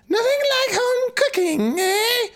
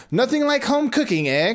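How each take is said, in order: First: Very high, cackling crone; cackling witch voice. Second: First try, only a hint of the witch; almost the crone, not quite yet; cackling voice. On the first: Acted. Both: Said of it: "it's a cackling voice".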